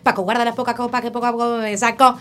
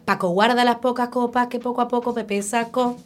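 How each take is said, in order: First: It is said at a faster pace. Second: It is said at a slower, normal pace.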